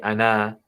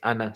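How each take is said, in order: First: The final vowel is drawn out long. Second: The final vowel is kept short. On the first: The speaker calls it wrong. "You don't say ana" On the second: The speaker calls it right. "it's ana. So like there's some silent letters"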